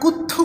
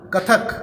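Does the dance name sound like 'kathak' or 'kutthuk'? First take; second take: kutthuk; kathak. First: It is said with u vowels and doubled t. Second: It is said with a vowels and single t. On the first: The speaker calls it wrong. "ওটা কুত্থুক নয়" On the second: The speaker calls it right.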